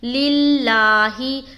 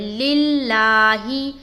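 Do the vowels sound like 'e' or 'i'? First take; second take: i; i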